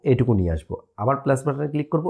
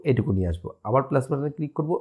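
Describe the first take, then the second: No difference in how they are said.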